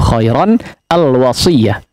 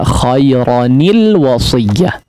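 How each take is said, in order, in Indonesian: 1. Bunyi n langsung menyambung ke 'al' tanpa vokal. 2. Bunyi n diberi vokal i, menjadi 'nil'. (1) "baca kasarnya begitu" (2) "maka nunnya dikasrohkan. Jadi dibaca"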